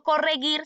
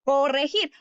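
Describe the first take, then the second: First: "corregir" said as "correguir"; "corregir" ending like "guir"; wrong hard G. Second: "corregir" said as "correjir"; "corregir", the g sounding like j; correct soft G. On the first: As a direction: demonstrate the error with hard g in "corregir". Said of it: "Yo no digo". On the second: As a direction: model "corregir" with throaty Spanish j. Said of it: "sino yo digo". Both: Shown as a demonstration.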